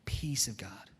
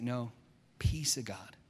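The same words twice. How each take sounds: First: Soft whispered "Peace of God"; gentle hushed reminder. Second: Calm reminder. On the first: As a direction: whisper it to calm an angry friend. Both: Retold or imitated. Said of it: "He's like".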